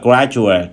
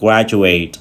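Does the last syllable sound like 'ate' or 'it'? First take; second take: it; ate. First: The last syllable has a short, weak vowel. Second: The last syllable has a full 'ate' vowel. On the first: It is the noun. "danh từ chúng ta đọc là graduate" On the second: It is the verb. "động từ chúng ta đọc graduate"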